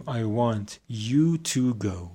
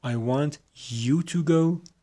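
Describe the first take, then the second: First: "you" leaned on, falling; stress on you. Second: Slow, higher, "go" drawn out; slow contrast reading. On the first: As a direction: point at the other person with "you". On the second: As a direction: contrast with "I want to go". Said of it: "پس ببینید I want to go". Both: Shown as a demonstration.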